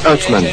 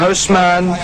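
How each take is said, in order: First: The middle consonant is a th sound. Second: The middle consonant is an s sound. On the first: The speaker calls it right. "mais Othman" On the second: The speaker calls it wrong. "Son nom n'est pas Osman"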